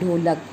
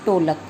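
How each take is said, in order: First: The word begins with an aspirated retroflex dh. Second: The word begins with a plain unaspirated t. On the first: The speaker calls it right. "शुद्ध उच्चारण जो होता है वो होता है ढोलक" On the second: The speaker calls it wrong. "अशुद्ध उच्चारण इसका कर देते हैं टोलक"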